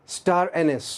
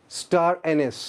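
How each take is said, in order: Both takes have the same delivery.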